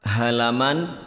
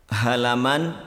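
The two takes are said the same way.

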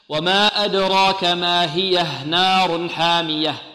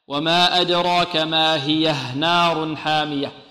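Both takes have the same delivery.

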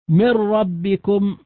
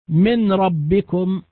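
First: The n merges fully into a doubled r. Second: The n sound is pronounced clearly before the r. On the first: The speaker calls it right. "بالإدغام الكامل" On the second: The speaker calls it wrong. "لأن هذا إظهار"

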